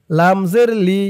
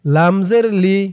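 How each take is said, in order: Both takes have the same delivery.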